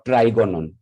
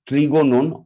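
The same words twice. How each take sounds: First: Trigonon with first syllable like "try"; alternative pronunciation. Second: Trigonon with a short TRIG-like first syllable, "tree-go-non"; first pronunciation variant. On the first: Teacher offering the other form of the Greek word, alternative pronunciation. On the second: Teacher naming the Greek root word, first pronunciation variant. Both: Shown as a demonstration. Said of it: "That is pronounced as".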